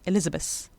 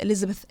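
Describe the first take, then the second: First: The th is replaced by another sound. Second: The word is said with a th sound. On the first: "very often people will just say Elizabeth" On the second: "I said Elizabeth because I know how to pronounce the th"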